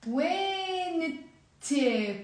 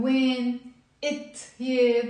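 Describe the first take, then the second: First: "When it" run together as one drawn-out word; linked with liaison. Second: "When", a pause, then "it here"; paused, unlinked. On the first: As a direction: glide from "When" into "it" without pausing. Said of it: "We will always make a link". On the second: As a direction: break after "When" before starting "it here". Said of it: "I'm not gonna pause and say". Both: Shown as a demonstration.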